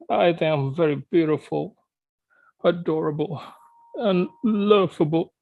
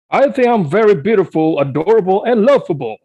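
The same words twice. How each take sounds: First: It is said in a sad voice. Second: It is said in a happy voice.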